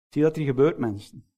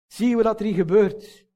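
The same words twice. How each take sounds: First: Said in the usual way. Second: Higher, pressing repeat of "Zie je wat er hier gebeurt"; emphatic repeat. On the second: Shown as a demonstration. Preacher urging the congregation to see, emphatic higher repeat.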